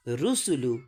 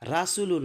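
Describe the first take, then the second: First: রুসুলু opening on "ru"; correct u vowel. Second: রাসুলু opening on "ra"; wrong a vowel. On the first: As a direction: model "oo" in all syllables of রুসুলু. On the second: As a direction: show the mistake, "aa" first in রাসুলু. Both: Shown as a demonstration. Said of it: "রাসুলু নাই".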